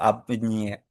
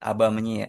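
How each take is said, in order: First: The preposition ends in a consonant before the pronoun. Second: The preposition has two syllables before the pronoun. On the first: The speaker calls it wrong. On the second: The speaker calls it right. "aba menye, bukan a menye atau ab menye"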